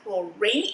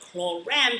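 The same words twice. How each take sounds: First: The name is said the English way, as spelled. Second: The name is said the French way. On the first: The speaker calls it wrong. "I know it's spelled um, R A N E, but it's not pronounced chlorane" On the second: The speaker calls it right. "It is pronounced chlorane because this is French"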